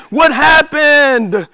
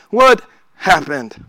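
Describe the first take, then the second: First: Slow searching question; puzzled question, drawn out. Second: Low inward echo. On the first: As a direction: ask slowly and a little higher, searching. Repeating the question, first take. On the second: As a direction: lower and slow, as if asking yourself. Repeating the question, second take. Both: Acted.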